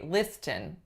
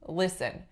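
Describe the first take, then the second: First: The t sound is clearly pronounced. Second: The t sound is silent. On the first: The speaker calls it wrong. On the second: The speaker calls it right.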